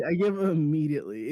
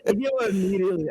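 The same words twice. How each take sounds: First: Said in the usual way. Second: Put-on fast, higher, a botched Jersey accent; failed Jersey accent. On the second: Co-host admitting defeat, a fast botched Jersey accent. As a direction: rush a clumsy Jersey accent, then give up. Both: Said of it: "I can't do an accent".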